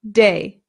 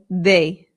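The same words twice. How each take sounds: First: The D is hard, as in English. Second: The D is soft, tongue behind the teeth. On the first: "An English person would say de" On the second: "but a Spanish person would say de"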